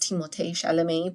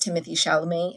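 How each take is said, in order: First: The first name ends with an 'ay' sound. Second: The first name ends with an 'ee' sound.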